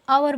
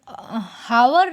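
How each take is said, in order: First: The word begins directly with a vowel. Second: The word begins with an h sound. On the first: The speaker calls it right. "इसे आवर बोलेंगे" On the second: The speaker calls it wrong. "हावर ना बोल के"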